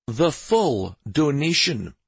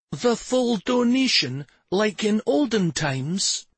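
First: Slow, emphatic confirmation; confirming. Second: Put-on very high, drawn-out boyish question; excited wonder. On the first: Acted. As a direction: weigh each word and settle it firmly. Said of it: "Stavin confirmed". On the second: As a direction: ask slowly in wide-eyed amazement. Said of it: "He wore an excited expression".

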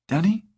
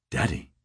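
First: High rising, confused "Daddy?"; puzzled question. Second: "Daddy." said low and soft; flat, lower and quieter "Daddy."; low flat repeat. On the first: Woman confused on phone. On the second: Harry repeats, embarrassed. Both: Acted.

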